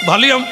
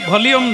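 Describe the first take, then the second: No difference in how they are said.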